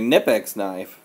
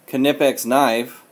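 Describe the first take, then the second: First: The K at the start is silent. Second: The K at the start is pronounced. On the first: The speaker calls it right. "You have to have a Nipex knife" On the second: The speaker calls it wrong. "you can't have a Knipex knife"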